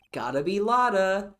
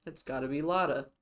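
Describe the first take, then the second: First: Higher and louder, called out; an excited shout; loud exclamation. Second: Said in the usual way. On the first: Shown as a demonstration. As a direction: belt the name out with excitement.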